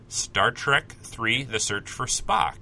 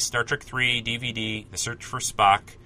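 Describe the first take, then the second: First: Slow title announcement. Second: Said in the usual way. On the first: Real, not acted.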